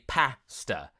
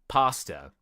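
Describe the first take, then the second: First: It is said in a British accent. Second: It is said in an American accent, like par. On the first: "So we say pasta" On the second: "where they will say pasta. ... that sounds like they're adding an R after the A"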